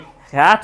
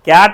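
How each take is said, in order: First: The first consonant has a strong puff of air. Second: The first consonant has no puff of air. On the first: The speaker calls it right. "कैट बोलेंगे" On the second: The speaker calls it wrong. "कैट नहीं"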